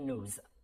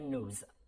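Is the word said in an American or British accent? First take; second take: American; American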